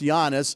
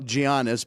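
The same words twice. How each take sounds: First: The name has a Greek pronunciation. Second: The name has an anglicized pronunciation. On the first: This is the corrected way to say it. The speaker calls it right. "but it's Giannis" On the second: This is how the speaker used to say it. The speaker calls it wrong. "who I used to call Giannis"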